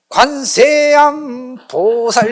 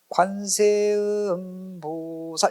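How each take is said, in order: First: Said forcefully, the third syllable sounds like 'am'. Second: The third syllable is pronounced clearly as 'eum'. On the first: The speaker calls it wrong. "좀 세게 하면 관세음보살 이러니까 마치 듣기가 관세음이 아니라 관세암으로 들린 거야" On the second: The speaker calls it right. "관세음보살 이렇게 해야 되는데"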